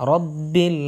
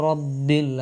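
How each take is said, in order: No difference in how they are said.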